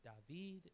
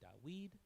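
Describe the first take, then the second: First: The middle consonant is a v sound. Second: The middle consonant is a w sound. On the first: This is not the classical pronunciation. The speaker calls it wrong. "his name is not David" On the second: This is the classical pronunciation. The speaker calls it right. "it's actually Dawid"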